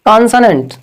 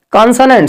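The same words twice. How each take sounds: First: "कॉन्सोनेंट" said kan-sa-nent, with the a-sound and not o; correct pronunciation. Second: "कॉन्सोनेंट" said with the wrong vowel sounds; wrong pronunciation. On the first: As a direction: model the right "कॉन्सोनेंट", calmly. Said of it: "ये वाला sound आता है". ("कॉन्सोनेंट" का सही उच्चारण, 'ओ' की जगह 'अ' की ध्वनि) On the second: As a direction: demonstrate the wrong "कॉन्सोनेंट" the students use. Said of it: "कॉन्सोनेंट नहीं". ("कॉन्सोनेंट" का गलत उच्चारण) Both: Shown as a demonstration.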